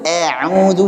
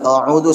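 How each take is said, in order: First: The first vowel is overly thinned, leaning toward e. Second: The first vowel is thick and rounded, like o. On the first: "berlebihan pengen nipisin jadinya taklil. A'udzu ini juga salah" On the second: "ini jadi tebal nih, a'udzu salah"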